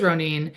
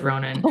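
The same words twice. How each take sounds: First: "Ronin" as roh-NEEN, long final vowel; correct pronunciation. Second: "Ronin" as ROH-nin, short second vowel; mistaken pronunciation. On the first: Host confirming to co-host, "Ronin" as roh-NEEN. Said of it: "It is Ronin". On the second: Host admitting the same guess, "Ronin" as ROH-nin. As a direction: say "Ronin" with the stress up front and a light "nin". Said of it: "I also would have said Ronin". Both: Shown as a demonstration.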